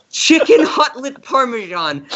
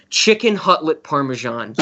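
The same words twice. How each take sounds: First: Chicken punched high, savoring the name; gleeful stress on Chicken. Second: Said in the usual way. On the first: Shown as a demonstration. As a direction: relish Chicken Hutlet, pitch up high. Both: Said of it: "calling this thing Chicken Hutlet Parmesan".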